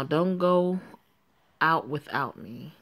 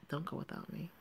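First: A touch louder, insistent Don't go out; firm warning. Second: Much softer, almost under the breath; soft repeat. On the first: Friend warning Joanne before going to sleep, firm and a bit louder. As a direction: warn her so she listens. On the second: Friend repeating her warning to Joanne, much softer. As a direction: repeat it softly as she drifts off. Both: Acted.

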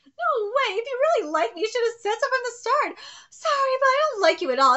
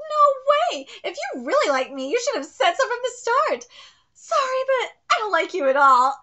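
First: Higher, louder and faster, with a crying laugh; reread, hammed-up rejection. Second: A high, loud character read of the rejection; first read of rejection. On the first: Rereading the cold rejection, fully hammed up. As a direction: ham up the rejection even more. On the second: Reading a girl's cold rejection, a loud first take. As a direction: deliver the harsh rejection line. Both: Shown as a demonstration. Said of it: "let me read this again".

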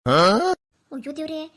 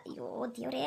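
First: Loud, slow, stretched wail to God; wailing lament. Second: Soft, low resigned groan; weary sigh. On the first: Old woman realising it's the ghosts' new-moon night, a loud, slow wail. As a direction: wail it out in dismay. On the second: Old woman resigned to hearing the ghost all night, a soft groan. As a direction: sigh it out, defeated. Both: Acted.

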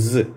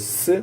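First: ஸ் as an unvoiced hissing s; ஸ் said as sss; S sound. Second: ஸ் as a voiced buzzing z; ஸ் said as zzz; Z sound. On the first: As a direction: hiss ஸ் like the S in sun. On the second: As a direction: buzz ஸ் like the Z in zoo. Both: Shown as a demonstration. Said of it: "இதுக்கு கொஞ்சம் வித்தியாசம்".

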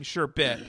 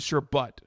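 First: "sherbet" as sher-BET, clear E; sherbet ending in BET. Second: "sherbet" as sher-BUT; sherbet ending in BUT. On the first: Retold or imitated. Co-host imitating the other's version, sherbet ending in BET. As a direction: give the end of "sherbet" a distinct BET. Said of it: "I feel like you're saying". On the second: Shown as a demonstration. Co-host showing the dictionary version, sherbet ending in BUT. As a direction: end "sherbet" on the sound of the word but. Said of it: "but this is sherbet".

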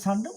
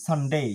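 First: Said in the usual way. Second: "সানডে" with full -dei diphthong; corrected -day ending. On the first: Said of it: "আমরা বলি". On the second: Shown as a demonstration. Teacher corrects the usual form, full-ending "সানডে". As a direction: say "সানডে" as SUN-DAY, lengthened glide at end. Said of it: "উচ্চারণ হবে".

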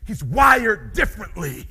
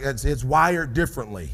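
First: Slow, loud, driven declaration; like a true hunter. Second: Like a nine-to-five worker. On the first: Shown as a demonstration. Showing the audience the hunter's way, slow and loud. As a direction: declare it with full conviction. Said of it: "I'm gonna show you". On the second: Retold or imitated. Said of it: "you just said it like you work a nine-to-five".

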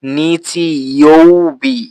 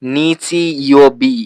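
First: নিচি ইয়োবি said slowly with a full u, nichi youbi; wrong pronunciation. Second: নিচি ইয়োবি said slowly with no u sound, nichi yobi; correct Japanese. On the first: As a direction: stretch নিচি ইয়োবি with a clear u as the mistake. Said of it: "তাহলে কিন্তু এটা ভুল হবে". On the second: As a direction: draw out নিচি ইয়োবি without the u. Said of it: "এই উ কিন্তু আমি উচ্চারণ করিনি". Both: Shown as a demonstration.

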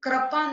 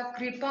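First: कृपा said "krapaa"; wrong vowel. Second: Said in the usual way. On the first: Shown as a demonstration. Teacher correcting a mistake, कृपा as "krapaa". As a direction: put "kra" for "kri" in कृपा. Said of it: "नहीं होता". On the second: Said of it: "होता है".

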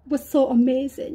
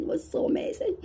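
First: Said in the usual way. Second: A hushed, reverent aside; awed whisper. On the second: Real, not acted. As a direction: breathe it out in a hush. Hushed repeat of the same line.

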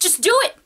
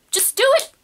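First: Said in the usual way. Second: "Just do it" with DO pitched much higher and pushed; emphatic repeat. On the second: Shown as a demonstration. Vlogger urging art viewers to stop making excuses, emphatic higher repeat. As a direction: hit "Just do it" again, far higher and insistent.

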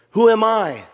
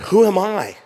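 First: Who am I? pitched higher and louder, pressing on it; the question stressed. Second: Moses asking in self-doubt. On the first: Shown as a demonstration. Preacher repeats Moses's question, pressing it hard. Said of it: "There's the question". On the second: Acted. Moses questions God, pitched up in doubt. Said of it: "Moses said to God".

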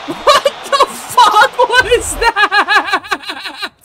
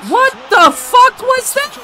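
First: Very slow, laughing, stretched high shout; laughing disbelief. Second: High, slow stunned shout; shocked yell. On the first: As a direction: laugh it out, dragging every word. Laughing at a bad play. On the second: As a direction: yell it in disbelief. Shocked at a bad play. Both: Real, not acted.

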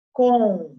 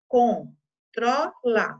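First: Loud, clear classroom callout of "Controla"; read out loudly. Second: "Controla" split into very slow separate syllables. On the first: Teacher calling a word to pupils, loud. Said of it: "Em vermelho". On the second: Teacher showing pupils the syllables, very slow. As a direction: sound out "Controla" syllable by syllable, slowly. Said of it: "Na palavra controla". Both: Shown as a demonstration.

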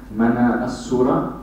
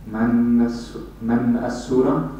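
First: "mana as-surah" with the "a" of "as" accentuated and sharp; sharp, accentuated vowel. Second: "man as-surah" with a light "a" linked onto "man"; lighter, joined vowel. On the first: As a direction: say "mana as-surah", sounding the "a" that opens "as-surah" distinctly. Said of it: "accentuated and sharper". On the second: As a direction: run "man as-surah" together as if the "a" belonged to "man". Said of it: "the a would sound lighter". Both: Shown as a demonstration.

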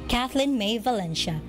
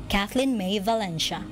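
No difference in how they are said.

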